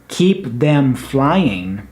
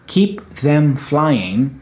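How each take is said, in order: First: The word 'them' is said in full. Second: The word 'them' is said in full.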